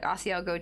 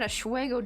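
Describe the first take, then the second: First: The name is said in its standard form. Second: The name starts with an 'ash' sound. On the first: The speaker calls it right. "Like Asiago cheese" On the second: The speaker calls it wrong. "my dad would call it a Schwego"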